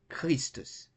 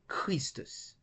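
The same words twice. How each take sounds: No difference in how they are said.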